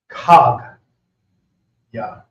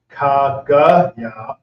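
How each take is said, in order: First: No vowel is sounded after the g. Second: A vowel is sounded after the g. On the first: The speaker calls it right. "the A gets dropped off in the sounding" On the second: The speaker calls it wrong. "Instead of saying"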